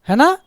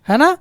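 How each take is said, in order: The two takes are said the same way.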